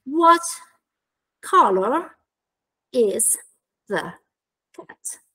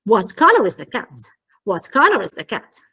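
First: One word at a time, long pauses between. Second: COLOR stressed, IS THE squeezed small before CAT; reduced function words. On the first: Teacher building an example question for trainees, word by word. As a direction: say WHAT, COLOR, IS, THE, CAT as isolated words. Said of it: "per esempio". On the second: Teacher modelling natural pronunciation of the question, connected speech. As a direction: run "What color is the cat" into one connected phrase. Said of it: "parole che invece vengono ridotte". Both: Shown as a demonstration.

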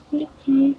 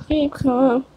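First: Breathy whispered keep calm, calm said with no voice. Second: Said in the usual way. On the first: Pretend. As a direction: hush it like a secret. Whispered take of meme line.

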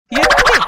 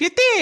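First: Calling out louder to get her attention; sharp loud call of எத்தே. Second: Said in the usual way. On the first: Acted. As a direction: raise the voice on the third call. Repeated calls, last one louder.

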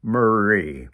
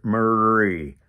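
First: "Marie" with the tongue curled on the r. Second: Said in the usual way. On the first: Shown as a demonstration. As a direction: curl the r in "Marie". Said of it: "a little curling of the tongue". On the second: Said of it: "See if you can discover it".

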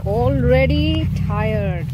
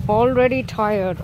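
First: Slow drawn-out. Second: Said in the usual way. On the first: Shown as a demonstration.

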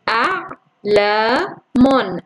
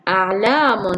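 First: أعلام drawn out very slowly, syllable by syllable; slow syllable split. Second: Said in the usual way. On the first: Shown as a demonstration. (أعلام ببطء شديد مقطعًا مقطعًا) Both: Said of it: "سوف أبدأ".

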